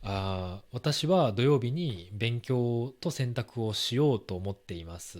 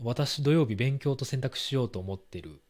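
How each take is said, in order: First: It is said at a moderate, careful pace. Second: It is said very fast and casually.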